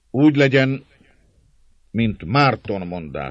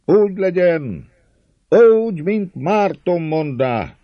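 First: Leader's assent. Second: High, loud drawn-out shout; roaring crowd. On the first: Dózsa approving what Márton said, measured proclamation. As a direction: pronounce agreement as the one in command. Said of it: "szólt Dózsa". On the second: Crowd roaring agreement with Márton, loud high cheer. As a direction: bellow assent like a whole crowd. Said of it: "Ordít a száz hang". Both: A narrator's reading.

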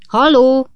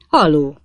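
First: High, loud hail; loud, high-pitched holler; shouted call. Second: Said in the usual way. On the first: A narrator's reading. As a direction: shout hello to get attention. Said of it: "kiáltotta megint Pickwick úr". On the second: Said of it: "mondta a vöröshajú ember".

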